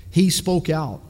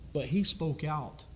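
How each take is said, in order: First: Loud, punched, falling to a firm stop; emphatic declaration. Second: Softer and slow, letting it sink in; quiet reverent echo. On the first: Preacher to his congregation, declaring boldly. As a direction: hit it like a verdict. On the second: Preacher to his congregation, softly and slowly. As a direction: drop the voice and linger on it. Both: Real, not acted. Preacher repeats line for weight.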